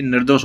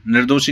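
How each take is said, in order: First: निर्दोष closed on the sibilant, no final vowel; correct form shown. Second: निर्दोषी with an added long "ee" ending; wrong form shown. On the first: Teacher giving the right word, निर्दोष ending without "ee". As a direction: stop निर्दोष on its "s" sound, without ई. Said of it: "निर्दोष होता है वो हमेशा". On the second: Teacher showing a wrong word, निर्दोषी ending in "ee". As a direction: end निर्दोषी on an extra ई sound. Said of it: "निर्दोषी नहीं होता वो कभी". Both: Shown as a demonstration.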